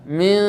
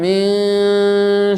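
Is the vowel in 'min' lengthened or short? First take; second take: short; lengthened. First: The vowel is short and the word is direct. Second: The vowel is drawn out and lengthened. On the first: The speaker calls it right. "Jadi langsung saja min" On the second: The speaker calls it wrong. "jangan min syarr"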